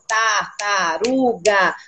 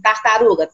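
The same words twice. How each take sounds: First: Tartaruga split very slowly into tar-ta-ru-ga; syllable by syllable. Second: Said in the usual way. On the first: Shown as a demonstration. Teacher to colleague, counting syllables of tartaruga slowly. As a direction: clap out tartaruga beat by beat. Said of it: "Quantas sílabas?". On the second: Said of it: "Por exemplo".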